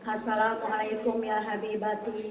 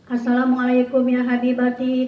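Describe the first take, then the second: First: The greeting is said more softly. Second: The greeting is said at normal loudness.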